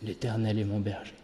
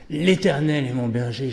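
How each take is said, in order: First: It is said in a small, flat voice. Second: It is said with lively, dramatic intonation. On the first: The text is prayed as a heartfelt prayer. "avec une petite voix sans intonation" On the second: The text is recited as a showy performance. "avec tellement d'intonation et de grands gestes"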